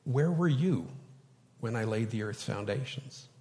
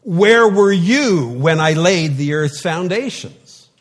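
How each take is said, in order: First: Quiet, gentle God. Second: Loud, high and slow, booming challenge; commanding voice from the whirlwind; thundering God. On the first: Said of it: "but how did God speak them". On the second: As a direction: boom it out like an angry God. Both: Shown as a demonstration.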